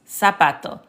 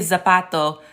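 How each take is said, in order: First: The word begins with a hissing S sound. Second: The word begins with a buzzing Z sound. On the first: The speaker calls it right. "This Z is pronounced like an S" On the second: The speaker calls it wrong. "if they let you say zapato, that's not correct"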